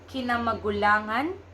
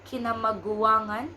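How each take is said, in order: First: The word is said with an L sound. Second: The word is said with a W sound. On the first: "six syllables" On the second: "Just replaced L with the W"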